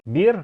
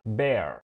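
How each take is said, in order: First: The vowel rhymes with ear and fear. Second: The vowel rhymes with air and care. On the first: The speaker calls it wrong. "فتتوقع دي بتتنطق ايه؟" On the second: The speaker calls it right. "دي بتتنطق bear"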